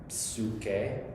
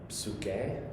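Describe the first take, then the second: The two takes are said the same way.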